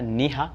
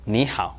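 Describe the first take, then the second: First: The second syllable ends in a plain 'a'. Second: The second syllable ends in an 'ao' glide. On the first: The speaker calls it wrong. "ce n'est pas Ni Ha" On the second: The speaker calls it right. "c'est Ni Hao"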